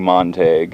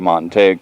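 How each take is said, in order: First: It has the name's original European pronunciation. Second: It has the local westernized Texas pronunciation. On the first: This is how the family name was first pronounced. "It probably was originally Montague" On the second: The name was changed to fit in with western Texans. "changed the pronunciation to Montague to westernize it"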